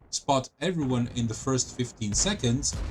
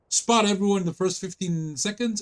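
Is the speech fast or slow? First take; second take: slow; fast. First: The words are spoken slowly. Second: The words are spoken quickly.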